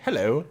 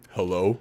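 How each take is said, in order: First: Imitating a British hello, pitched up a little; British-accented hello with a rising lift; higher-pitched British accent. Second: Low-pitched American-style hello; questioning hello, dropped down low; deep non-British voice. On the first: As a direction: put on a lighter British accent. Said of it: "his, like, much higher pitched British accent". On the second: Retold or imitated. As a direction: imitate a deep voice without the British accent. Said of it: "a really deep non-British accent voice".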